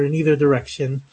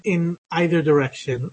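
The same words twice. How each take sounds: First: "either" said with a long E, EE-ther; EE-ther pronunciation. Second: "either" said with a long I, EYE-ther; EYE-ther pronunciation. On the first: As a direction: start "either" with an "ee" sound. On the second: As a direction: start "either" like the word "eye". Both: Shown as a demonstration. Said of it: "depending on how you prefer to say it".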